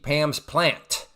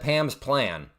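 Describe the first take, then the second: First: The final T of the last word is clearly sounded. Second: The final T of the last word is dropped. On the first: The speaker calls it right. "I'm not emphasizing the T" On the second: The speaker calls it wrong. "I don't say it right"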